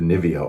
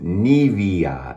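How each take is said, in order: First: It is said with an American pronunciation. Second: It is said with a German pronunciation. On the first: "that's how we pronounce it here in America" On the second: "as someone from Germany said, we pronounce it"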